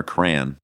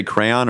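First: "crayon" squashed into "cran"; "crayon" as a single syllable, "cran"; one-syllable pronunciation. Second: "crayon" said as "CRAY-on"; full "CRAY-on" for "crayon"; two-syllable pronunciation. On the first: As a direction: say "crayon" to rhyme with "man". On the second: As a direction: give "crayon" both syllables, "cray" then "on". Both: Shown as a demonstration. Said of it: "Do you say crayon or crayon?".

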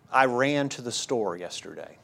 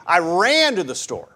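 First: "I" leaned on, the rest of "I ran to the store yesterday" kept light and even; stress on I. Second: "ran" pushed up and out, the rest of "I ran to the store" falling away; stress on ran. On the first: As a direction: put the weight on "I", as in it was me who went. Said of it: "the inflection you give in a sentence". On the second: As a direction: hit "ran" hard, as if I ran rather than walked. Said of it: "the inflection changes the meaning". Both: Shown as a demonstration.

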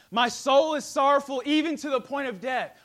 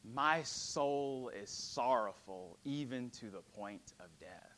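First: Much louder, higher; fervent repeat. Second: Slow, softer, lower sorrow; solemn quote. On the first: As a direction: cry it out with force. Repeated with force. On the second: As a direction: speak it as a weary confession. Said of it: "Jesus tells his disciples". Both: Acted.

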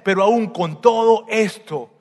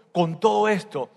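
First: "con todo esto" slowed and pushed louder, stress on "todo"; emphatic slow phrase. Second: Said in the usual way. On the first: Shown as a demonstration. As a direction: lean hard on "todo" as the turning point. ("con todo esto" lento y fuerte, acento en "todo")

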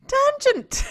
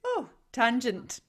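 First: High, loud cry of the word; loud exclaim. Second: Said in the usual way. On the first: Shown as a demonstration. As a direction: shout the word out.

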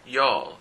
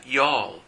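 First: Y'all said jol, a bit louder; y'all, firm jol; pronunciation. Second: Y'all said jol, falling; y'all as one syllable jol; pronunciation. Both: Shown as a demonstration. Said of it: "se pronuncia y'all".

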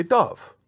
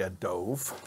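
First: Said in the usual way. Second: "dove" said with a long o, like "doave"; Brooklyn dove. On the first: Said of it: "You say dove". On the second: Shown as a demonstration. Teacher demos how Brooklyn friends say dove, softly. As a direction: rhyme "dove" with "stove" the Brooklyn way. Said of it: "as my friends from Brooklyn say".

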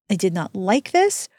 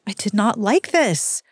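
First: "this" lifted at the end with a rising tune; stress on this. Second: "like" leaned on with a falling tune; stress on like. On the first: Repeating it to viewers, stress on this. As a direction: lean on "this" in "I did not like this", pitch going up. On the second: Telling viewers the book ending, stress on like. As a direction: punch "like" in "I did not like this" and drop. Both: Real, not acted. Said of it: "repeats it, shifting the stress".

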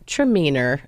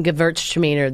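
First: "Traminer" said as the short Australian name, lower; "Traminer" in a light Australian manner; Australian pronunciation. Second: Said in the usual way. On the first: Shown as a demonstration. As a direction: say "Traminer" alone, dropping the Gewürz, Aussie style. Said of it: "they just say Traminer". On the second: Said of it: "Instead of saying Gewürztraminer".

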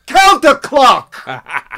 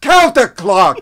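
First: Slow, loud high New York shout; New York accent. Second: Slow, loud New York shout; New York accent. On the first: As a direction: yell it long like an old New York director. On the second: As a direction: stretch out the word "Counterclock" with a New York bark. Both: Retold or imitated. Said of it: "in his New York accent".

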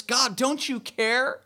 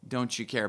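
First: High, slow, pleading question rising at the end; anguished plea. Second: Low, soft "Don't you care?" falling away; quiet echo. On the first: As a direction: cry "God, don't you care?" up to heaven. Voicing anguished prayer to God. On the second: Preacher restating the question quietly. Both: Retold or imitated.

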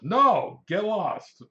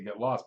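First: Loud, high blurted brush-off; hammed-up rude dismissal; mock angry rebuff. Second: Said in the usual way. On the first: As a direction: bark it like a customer shooing off an agent. Customer rudely rebuffs the agent.

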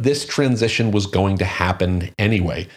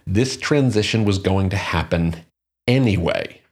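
First: Said in the usual way. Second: Deliberate emphasis, with a pause before "anyway"; emphatic repeat. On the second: Real, not acted. Host underlining a key point to listeners, emphatic pause before "anyway". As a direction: set "anyway" apart after a beat to drive it home. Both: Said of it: "I really want to emphasize that point".

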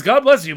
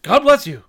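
First: God bless you, loud and curt like an insult; irritated God bless you. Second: God bless you, loud and curt; snappy God bless you. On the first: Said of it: "kinda sounded like, Cover your fucking mouth". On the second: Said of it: "I said it like that". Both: Acted.

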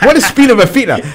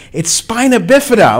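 First: High, loud, baffled "What is spina bifida?"; acting stunned at the news; confused disbelief. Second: "It's spina bifida" with a clear, high "spina"; correcting pronunciation. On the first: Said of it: "I'm like". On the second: Retold or imitated. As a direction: spell out the right word for him. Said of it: "It's like".

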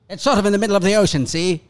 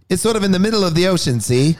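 First: Put-on quick, high copy of a Mid-Atlantic accent; imitating Mid-Atlantic accent. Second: Fast, high Mid-Atlantic accent. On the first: Friend copies the Mid-Atlantic accent he just heard. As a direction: parrot his Mid-Atlantic accent back, pitched up. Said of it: "I like that accent". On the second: Shown as a demonstration. Demonstrating the Mid-Atlantic accent he wants to learn. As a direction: rattle it off in a clipped Mid-Atlantic voice. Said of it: "a Mid-Atlantic one, which is more clipped".

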